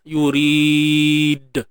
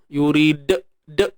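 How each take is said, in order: First: The final d is released cleanly with nothing added. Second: The final d is held and followed by e. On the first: The speaker calls it right. "Pastikan natural je" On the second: The speaker calls it wrong. "dengan bunyi hamzah yurid, bunyi e kat belakang tu"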